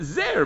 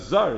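First: The word is said with an 'eh' vowel. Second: The word is said with an 'ah' vowel. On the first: It suggests a crown. "we read it with a tsere as if it had a yud" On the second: It suggests something foreign or estranged. "it says zer without a yud, which sounds like zar"

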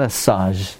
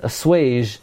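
First: The word has no w sound after the s. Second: The word has a w sound after the s. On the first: The speaker calls it wrong. "Not assage" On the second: The speaker calls it right.

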